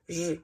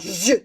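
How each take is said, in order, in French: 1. Le mot est prononcé avec un son plus doux. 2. Le mot est prononcé avec un son plus dur. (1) "plus doux" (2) "pas je"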